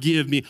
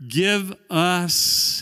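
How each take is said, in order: First: "Give me" with weight on "me"; "Give me" stressing the selfish "me". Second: "Give us" with weight on "us"; "Give us" stressing the shared "us". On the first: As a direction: lean on "me" as the wrong reading. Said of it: "It's not". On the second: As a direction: lean on "us" to show community. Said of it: "we're back to the community". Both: Shown as a demonstration.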